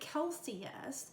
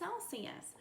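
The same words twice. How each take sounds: First: It begins with a hard K sound. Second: It begins with a soft S sound. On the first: The speaker calls it wrong. "We don't say" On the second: The speaker calls it right. "we say; this is the soft C sound"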